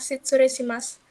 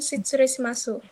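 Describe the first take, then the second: First: The word ends without a final vowel sound. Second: The word ends with a clear final vowel. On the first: The speaker calls it right. "pada kata Shitsuresimas" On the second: The speaker calls it wrong. "Di video dikatakan Shitsuresimasu"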